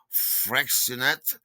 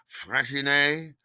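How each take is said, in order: First: "Freixenet" with a ks and sounded final t; hard x pronunciation. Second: "Freixenet" with sh and ending in -ay; French-style pronunciation. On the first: Naming the champagne they bought, "Freixenet" said slowly as FREX-uh-net. Two pronunciations of a wine name. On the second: Correcting the champagne's name, "Freixenet" drawn out as FRESH-ee-nay. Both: Shown as a demonstration.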